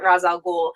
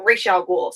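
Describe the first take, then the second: First: The first word sounds like "Roz". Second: The first word sounds like "Raish". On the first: "I personally pronounce it" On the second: "pronounce it Raish al Ghul"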